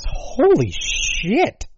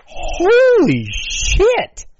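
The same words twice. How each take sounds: First: Drawn-out high disbelief; slow, high-pitched astonishment; stunned holy shit. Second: High, loud, slow disbelief; drawn-out high shout of shock; louder holy shit. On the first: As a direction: let the shock stretch the words out. Shocked at death toll. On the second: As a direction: push the shock further, bigger. Repeats exclamation louder. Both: Real, not acted.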